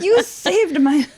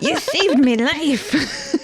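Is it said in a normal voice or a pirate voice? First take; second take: normal voice; pirate voice. First: It is said in a normal voice. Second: It is said in a pirate voice.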